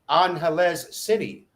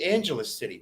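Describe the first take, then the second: First: The first vowel sounds like 'ah'. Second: The first vowel sounds like 'ay'. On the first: The speaker calls it right. "That is the correct way to say it" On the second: The speaker calls it wrong. "I bet you say Angeles City"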